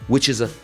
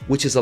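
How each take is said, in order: First: Each word is said separately and clearly. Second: The words are squashed together and said quickly.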